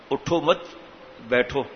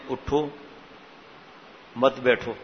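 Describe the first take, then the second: First: اٹھو مت run together, pause, then بیٹھو; pause after مت. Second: اٹھو alone, long pause, then مت بیٹھو together; pause after اٹھو. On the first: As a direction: join مت onto اٹھو, then بیٹھو on its own. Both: Shown as a demonstration. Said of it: "ترجمہ غلط ہو گیا".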